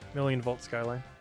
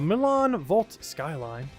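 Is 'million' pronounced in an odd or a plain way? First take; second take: plain; odd. First: The word million is pronounced in a plain way. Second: The word million is pronounced in an odd way. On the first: The speaker calls it right. "It's just million" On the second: The speaker calls it wrong. "I was trying to say that in a weird way"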